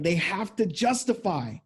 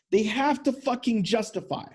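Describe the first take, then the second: First: Said in the usual way. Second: "fucking" hammered in to drive "justify" home; emphatic repeat. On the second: Shown as a demonstration. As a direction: repeat it harder, leaning on "fucking".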